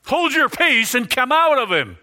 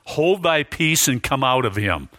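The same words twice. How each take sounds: First: Sharply higher, forceful command to the demon; commanding yell. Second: Said in the usual way. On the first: Shown as a demonstration. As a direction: order it out like casting a demon out. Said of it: "I don't know if he yelled". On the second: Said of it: "I gotta do it to emphasize something".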